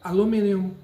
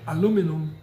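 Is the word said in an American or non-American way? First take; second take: non-American; American. First: The word is said in a non-American way. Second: The word is said in an American way.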